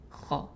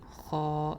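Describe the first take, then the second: First: The vowel is kept short. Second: The vowel is drawn out long. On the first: The speaker calls it right. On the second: The speaker calls it wrong. "not kha like long"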